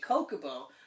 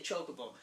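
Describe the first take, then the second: First: It starts with a hard 'k' sound. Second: It starts with a 'ch' sound. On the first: The speaker calls it right. "my name is spelled C H R I S, I say [name], so I would say Chocobo" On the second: The speaker calls it wrong. "but chocolate is spelled C H O, so I can see why people would say Chocobo. It's wrong"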